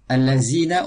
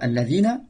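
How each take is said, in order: First: The middle consonant is a 'z' sound. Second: The middle consonant is a 'dh' sound. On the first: The speaker calls it wrong. "c'est pas dans son point de prononciation, donc ça c'est erreur de récitation" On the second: The speaker calls it right. "au lieu de dire alladina"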